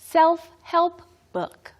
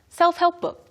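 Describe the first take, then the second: First: The phrase is said at a slow pace. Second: The phrase is said at a very quick pace.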